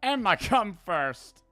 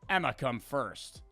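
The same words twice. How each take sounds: First: It is said in an Italian accent. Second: It is said in a plain accent.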